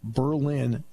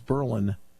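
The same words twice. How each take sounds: First: It is pronounced the way the German city is. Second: It is pronounced the way Pennsylvanians say it. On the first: It names the city in Germany. "it's Berlin, Germany" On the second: It names the town in Pennsylvania. "It's Berlin in Pennsylvania"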